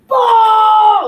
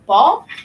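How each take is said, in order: First: It sounds like an insistent demand. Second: It sounds like a searching question. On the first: The child wants the ball. "meaning I want the ball" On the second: The child asks where the ball is. "they're saying, where's where's the ball"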